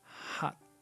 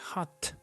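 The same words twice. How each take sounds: First: The final T is not audibly released. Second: The final T is clearly released. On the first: The speaker calls it right. "it's not going to sound" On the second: The speaker calls it wrong. "you don't say"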